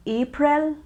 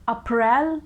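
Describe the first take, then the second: First: April said as "AY-pril", first syllable stressed; correct April. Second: April said as "uh-PRELL", second syllable stressed; mispronounced April. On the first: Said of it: "April is the correct pronunciation". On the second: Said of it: "never say April, that's really wrong". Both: Shown as a demonstration.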